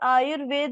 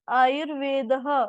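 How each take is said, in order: First: The word ends without a final breathy h. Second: The word ends with a final breathy h. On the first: The speaker calls it wrong. "आयुर्वेद नहीं" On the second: The speaker calls it right. "लास्ट में दो dot, इसको उच्चारण इसका कैसे होता है"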